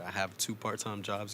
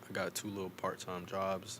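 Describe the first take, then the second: First: It is said in a formal tone. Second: It is said in a casual tone.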